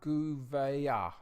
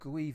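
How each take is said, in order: First: The name is said with more separate sounds. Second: The name is smoothed into one short sound. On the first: The speaker calls it right. "what the Portuguese would say" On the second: The speaker calls it wrong. "mine's more French"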